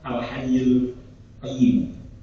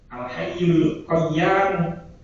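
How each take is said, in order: First: The last word ends with an i vowel. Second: The last word ends with a long a vowel. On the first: This is a reading found in an early companion's codex. "enten teng Mushaf Abdillah" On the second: This is a reading attributed to an early caliph. "Qaf ya alif mim"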